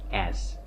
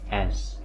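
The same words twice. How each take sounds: The two takes are said the same way.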